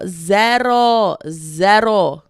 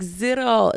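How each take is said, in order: First: Loud, drawn-out fake Spanish accent; mock Spanish accent. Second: Said in the usual way. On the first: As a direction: belt it out in a put-on Spanish accent. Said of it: "but with the accent". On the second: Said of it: "say it in English".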